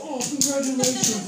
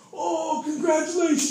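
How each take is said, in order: First: High, loud mock "congratulations" redone; imitating jealous guy. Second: High, loud, sarcastic "congratulations" with a hit; mock jealous congratulations. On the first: Preacher re-enacting the homeless man, high and mocking. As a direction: replay his sneering congratulations. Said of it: "like that". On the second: Homeless man mocking a new father, high and loud. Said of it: "He starts smacking him in the face".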